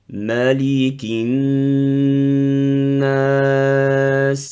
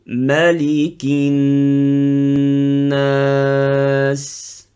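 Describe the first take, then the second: Both takes have the same delivery.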